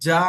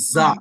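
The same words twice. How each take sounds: First: It begins with a j sound. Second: It begins with a z sound. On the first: The speaker calls it wrong. "ఇక్కడ చాలా మంది ఏమంటే జా అంటారు" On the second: The speaker calls it right. "ఇది జా కాదు, ఇది జా"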